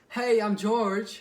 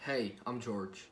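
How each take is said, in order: First: The voice does not drop at the end. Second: The voice drops lower at the end. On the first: The speaker sounds less sure of themselves. The speaker calls it wrong. "instead of just" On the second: The speaker sounds sure of themselves. The speaker calls it right. "lower your voice at the end"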